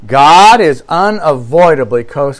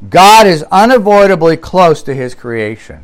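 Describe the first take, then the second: First: "God is unavoidably close" slowed down, each word weighed; slow emphatic repeat. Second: Said in the usual way. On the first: Shown as a demonstration. Preacher repeats the key line slowly to his listeners with weight. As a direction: lean on "unavoidably close" so it sinks in. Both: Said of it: "Did you hear that?".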